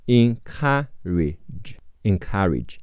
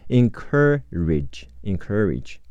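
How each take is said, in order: First: "encourage" as in-KA-ridge, open ah, in pieces then whole; stressed ka syllable. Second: American "encourage" with an r-coloured in-KER-ridge; American pronunciation. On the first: Teacher models encourage before the American variant, stressed KA. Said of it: "重音在咔". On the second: Teacher shows learners the American variant, encourage as in-KER-ridge. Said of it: "美式发音是科呃科". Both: Shown as a demonstration.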